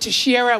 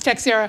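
First: The name is said the Brazilian Portuguese way. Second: The name is said the local New England way. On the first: This is how people say it nationally. "Nationally, they pronounce it Teixeira, which I guess is a Brazilian Portuguese pronunciation" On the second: This is how people in the local area say it. "It's Teixeira"

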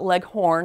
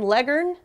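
First: The second syllable is a full, clear 'horn'. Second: The second syllable is reduced, not a full 'horn'. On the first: The speaker calls it wrong. "not Leghorn, like Foghorn Leghorn" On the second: The speaker calls it right. "Leghorn, not Leghorn"

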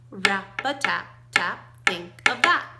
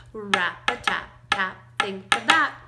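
The two takes are said the same way.

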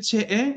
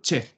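First: The word ends with an extra vowel sound. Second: The word ends with a single vowel sound. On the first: The speaker calls it wrong. "Non si dice c'è e" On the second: The speaker calls it right. "ma solo c'è"

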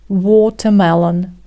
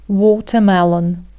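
First: The t is pronounced crisply and clearly. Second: The t is pronounced crisply and clearly.

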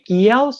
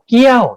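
First: The syllable is said on a high tone. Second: The syllable is said on a falling tone. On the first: "สูงขึ้นไปอีกเสียงตรี" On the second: "เสียงสูงขึ้นเป็นเสียงโท"

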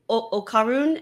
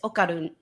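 First: The r is an English-style r sound. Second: The r is a quick flap behind the teeth. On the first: The speaker calls it wrong. "Instead of okarun" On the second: The speaker calls it right. "instead of a D sound, it's a rolling L"

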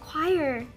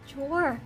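First: The word is pronounced like 'choir'. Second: The word is pronounced like 'chore'. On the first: This is how the word is actually said. The speaker calls it right. "nhưng mà nó đọc là choir" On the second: This is how the word was wrongly assumed to sound. The speaker calls it wrong. "mình mặc định là cái chữ đó đọc là chore"

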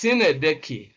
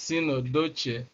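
First: The word ends with a 'kee' sound. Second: The word ends with a 'doach' sound. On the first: The speaker calls it right. "it is important you learn the appropriate pronunciation. It's Sinedeki" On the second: The speaker calls it wrong. "some students mispronounce this as Sinodoche"

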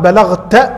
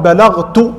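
First: The word ends with a short 'a' vowel. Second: The word ends with a short 'u' vowel. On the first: The listener is the one addressed. The speaker calls it wrong. "أبدل مكان الضمة فتحة" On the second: The speaker refers to himself. The speaker calls it right. "التاء المضمومة هي للمتكلم"

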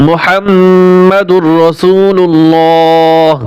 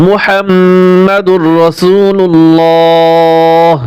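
The two takes are said the same way.

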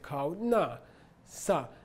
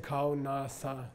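First: The syllables are said with a high tone. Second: The syllables are said with a low tone. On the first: The speaker calls it right. "you say kao, na, sa" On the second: The speaker calls it wrong. "you don't say kao, na, sa"

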